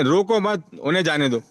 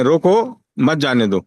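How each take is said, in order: First: रोको मत as one group, then उन्हें जाने दो; letting-go sense. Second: रोको slow and set apart, then मत जाने दो; stopping sense. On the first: Trainee explains the second sentence as letting go, break after मत. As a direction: join रोको मत, break, let जाने दो fall. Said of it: "और दूसरे में कह रहे हैं". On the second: Trainee explains the first sentence as stopping someone, slowly with a break after रोको. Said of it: "पहले में तो आप रोकने पे आमादा कर रहे हैं". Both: Shown as a demonstration.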